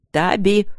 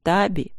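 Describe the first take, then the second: First: Louder, higher, sharp call; irritated bark. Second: Composed, level address; calm. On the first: Husband cuts through his wife's sobbing, irritated bark. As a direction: cut in loudly, losing patience. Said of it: "рявкнул Тедус, раздражаясь". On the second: Husband opens his explanation to his suspicious wife, calm. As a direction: say it calmly, with control. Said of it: "сказал он спокойно". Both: A narrator's reading.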